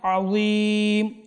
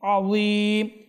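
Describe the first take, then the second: Both takes have the same delivery.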